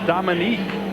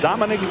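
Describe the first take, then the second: First: The name ends with a long 'neek' sound. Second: The name ends with a short 'nick' sound. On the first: This is how the name is actually said. The speaker calls it right. "It's Dominique when you pronounce it" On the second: This is how the name looks in writing. The speaker calls it wrong. "it's Dominic when you look at it spelled"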